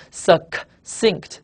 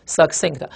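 First: Succinct split slowly into "suc" and "cinct"; both Cs sounded. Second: Said in the usual way. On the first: Shown as a demonstration. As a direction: sound both Cs in succinct, a K then an S, with a gap between. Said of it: "C C两个C都发音了". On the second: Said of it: "读一读啊".

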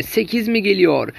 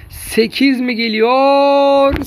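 First: Said in the usual way. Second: Drawn-out, louder, higher call; excited. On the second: Acted. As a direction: stretch it out with rising hype. Building excitement for eighth goal.

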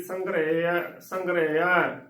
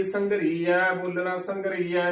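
First: ਸੰਘਰੇਆ with "re" before the final "ya"; correct sihari sound. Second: ਸੰਘਰੀਆ with "ree" in the middle; wrong bihari sound. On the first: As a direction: say ਸੰਘਰੇਆ as "sangre-ya", short e. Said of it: "ਇੱਥੇ ਐੜੇ ਨੂੰ ਦਲਾਵਾਂ ਲੱਗ ਜਾਏਗੀ". (ਸੰਘਰੇਆ ਵਿੱਚ "ਰੇ" ਦੀ ਆਵਾਜ਼, "ਰੀ" ਨਹੀਂ) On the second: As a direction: say ਸੰਘਰੀਆ as "sangree-ya", long ee. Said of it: "ਗਲਤ ਉਚਾਰਨ ਹੋਵੇਗਾ". (ਸੰਘਰੀਆ ਵਿੱਚ ਲੰਮੀ "ਰੀ" ਦੀ ਆਵਾਜ਼) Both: Shown as a demonstration.

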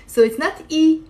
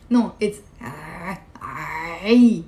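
First: Said in the usual way. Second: "ah" slow, low, pressed in the throat; ain with kasra. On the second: Shown as a demonstration. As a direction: squeeze "ah" deep, no e glide.

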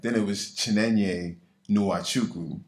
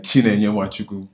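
First: Chinenye Nwachukwu said slow and anglicized; americanized version. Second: Chinenye Nwachukwu said the Igbo way, loud and fluent; mama's Igbo pronunciation. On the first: Shown as a demonstration. Doctor showing how her name changed in America, anglicized. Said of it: "then I came". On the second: Retold or imitated. Doctor imitating how her mama says her name, Igbo. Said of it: "if my mama were to say".

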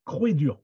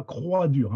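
First: Croix-Dur with the vowel "Croix" said like "crwé"; Croix-Dur said right. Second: Croix-Dur with standard French "crwa"; Croix-Dur said wrong. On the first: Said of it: "toujours avec un accent". (Croix-Dur prononcé « crwé-dur ») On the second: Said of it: "pas Croix-Dur". (Croix-Dur prononcé à la française, « crwa-dur ») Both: Shown as a demonstration.

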